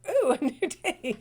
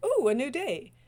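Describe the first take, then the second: First: Laughing dog. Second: Excited dog. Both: Retold or imitated. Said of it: "be like a dog every day".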